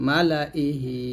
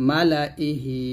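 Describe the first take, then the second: No difference in how they are said.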